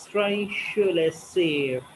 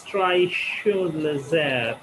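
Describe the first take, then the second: First: Said in the usual way. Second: Drei Schulesser split with a pause between the words; split phrasing. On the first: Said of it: "it speaks like that". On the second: Shown as a demonstration. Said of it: "speaking in a split manner".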